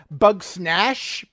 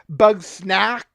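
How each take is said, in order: First: The name ends with a sh sound. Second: The name ends with a k sound. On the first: "I've heard it from Jen pronounced bug snash"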